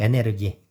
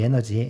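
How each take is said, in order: First: The word is said in a German-style reading. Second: The word is said in an English-style reading.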